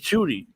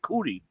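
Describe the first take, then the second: First: The name starts with an 'sh' sound. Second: The name starts with a 'k' sound. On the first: The speaker calls it right. "It's Shooty" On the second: The speaker calls it wrong. "It ain't ain't Cootie"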